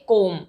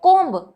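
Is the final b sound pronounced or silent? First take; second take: silent; pronounced. First: The word ends on m with no b. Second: The word ends with an audible b. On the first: The speaker calls it right. "तो हम इसे pronounce करेंगे कोम" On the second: The speaker calls it wrong. "Almost learners या students use करते हैं कोम्ब"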